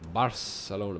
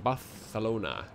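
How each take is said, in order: First: It is said with an English pronunciation. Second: It is said with a Spanish pronunciation. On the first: The speaker calls it wrong. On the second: The speaker calls it right.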